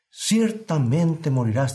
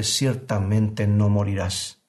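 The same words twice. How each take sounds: First: Slow, grave divine warning; voice of God. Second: Slow, coaxing mock serpent; serpent's voice. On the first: Acted. Preacher voicing God's warning to Adam, slow and grave. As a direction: let each word fall like a verdict. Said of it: "dijo Dios". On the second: Preacher echoing the serpent's lie to his listeners, slow and coaxing. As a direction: draw the lie out smoothly, a hint of the tempter. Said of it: "eco de la voz de la serpiente".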